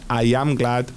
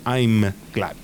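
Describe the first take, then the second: First: I and am are said as two separate words. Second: I and am are joined into one syllable.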